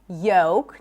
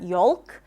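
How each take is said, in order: First: The L is silent. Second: The L is pronounced. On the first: The speaker calls it right. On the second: The speaker calls it wrong.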